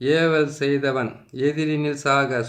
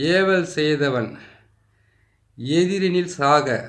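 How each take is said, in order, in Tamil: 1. வேகமாக ஓதப்படுகிறது. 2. மெதுவாகப் பொறுமையாக ஓதப்படுகிறது. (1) "இதை கொஞ்சம் நான் வேகமாகவும் சொல்லிடுறேன்" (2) "பொறுமையாவும் சொல்றேன்"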